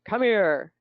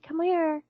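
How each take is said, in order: First: The voice is low and deep. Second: The voice is soft and gentle. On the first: The speaker calls it wrong. "We don't use the the low voices" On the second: The speaker calls it right. "We have to use these soft ones"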